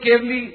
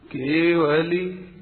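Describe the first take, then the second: First: केवली rushed so the व is half swallowed, kev-li; quick clipped केवली as the common mistake; wrong pronunciation. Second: केवली said slowly with a full, clear व, every syllable complete; careful teacher's model of केवली; correct pronunciation. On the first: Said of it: "तो गलत बोलते हैं". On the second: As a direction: draw out केवली carefully, ke-va-li, nothing swallowed. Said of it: "इसका शुद्ध उच्चारण है". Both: Shown as a demonstration.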